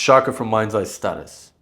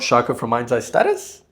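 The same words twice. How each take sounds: First: The pitch falls at the end like a statement. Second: The pitch rises at the end like a question. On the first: The speaker sounds certain and final. The speaker calls it right. "it's Shaka from Mind's Eye Status" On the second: The speaker sounds uncertain. The speaker calls it wrong. "Not Shaka from Mind's Eye Status"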